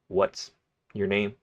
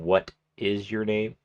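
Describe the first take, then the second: First: The words what and is merge into one syllable. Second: The words what and is are both said fully. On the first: "we abbreviate a lot" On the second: "instead of saying"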